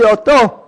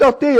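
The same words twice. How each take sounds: First: אותו said as the right form, him, a touch louder; correcting a pupil, the right form אותו; correct word. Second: אותי said as the wrong form, me, to be avoided; teacher voicing the mistaken אותי; correcting a pupil, the wrong form אותי; wrong word. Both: Shown as a demonstration. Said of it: "אל תגיד אותי".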